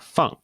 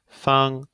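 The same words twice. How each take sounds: First: The pitch falls sharply from high to low. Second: The pitch stays high and level. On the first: It means to put down. "in the fourth tone, we have uh, feng" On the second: It means square or convenient. "in the first one we have feng"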